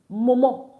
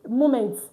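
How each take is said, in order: First: The word is said with a French pronunciation. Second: The word is said with an English pronunciation. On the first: The speaker calls it right. "but in French is moment" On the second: The speaker calls it wrong. "in English, this will tell you moment"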